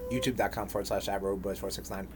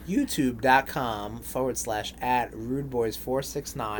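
First: It is said at a quick pace. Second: It is said at a slower pace.

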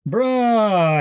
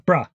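First: The vowel is drawn out long. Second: The vowel is kept short. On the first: The speaker doesn't believe someone. "it's a longer vowel sound" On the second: The speaker is getting someone's attention. "which is like get your attention"

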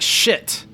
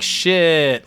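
First: It sounds like a sudden, dismayed exclamation. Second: It sounds like an impressed, admiring exclamation. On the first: Something bad just happened. "that's like you're late for your bus, you drop something" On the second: Something is cool or impressive. "That's cool"

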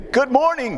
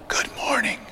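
First: The greeting is said loudly. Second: The greeting is said softly.

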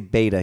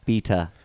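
First: The word is said with an American pronunciation. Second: The word is said with a British pronunciation. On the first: This is the usual way to say it. "he doesn't say beta" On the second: This is how a particular Brit says it. "he says beta. ... that's how Brits say beta"

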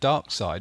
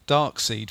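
First: The second syllable sounds like 'side'. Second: The second syllable sounds like 'seed'.

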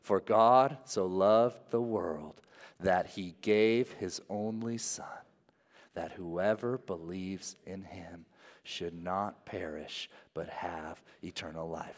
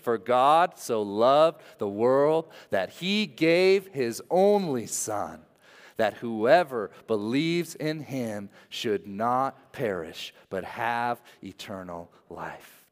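First: It is read in a plain, ordinary way. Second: It is read with strong, earnest conviction.

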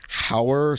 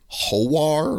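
First: It sounds like Howard without the final D. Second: It sounds like Ho-War, with an O vowel first. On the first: "so like Howard without the D" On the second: "like Ho-War"

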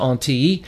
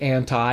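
First: The word is pronounced the Greek way. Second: The word is pronounced the English way. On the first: "but the Greek pronunciation is anti" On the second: "We would say anti in English"

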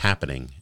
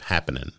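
First: The ending is said fully with the g sound. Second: The ending is clipped without the g sound. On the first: The speaker calls it right. "enunciating and pronunciating" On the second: The speaker calls it wrong. "instead of"

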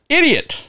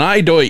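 First: It is said as three syllables, id-ee-ut. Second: It is said as two syllables, eye-doyt. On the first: The speaker calls it right. "It was idiot" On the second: The speaker calls it wrong. "it wasn't eidoit"

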